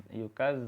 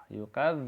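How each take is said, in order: The two takes are said the same way.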